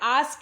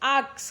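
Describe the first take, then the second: First: The word ends with the sounds s then k. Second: The word ends with the sounds k then s. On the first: "आस्क है" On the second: "आक्स कर दिया"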